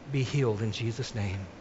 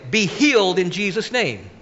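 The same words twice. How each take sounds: First: It is said in a soft, gentle voice. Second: It is said in a loud, forceful voice. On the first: It is a mild request. "I could say this in a nice voice" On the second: It is a confident declaration. "we need to declare it"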